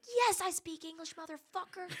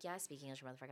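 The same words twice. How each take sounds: First: Put-on high, loud, cussing comeback to the kid; loud retort. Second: Said in the usual way. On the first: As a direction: snap it back at him, loud and high. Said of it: "And I was like". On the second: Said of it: "I was like".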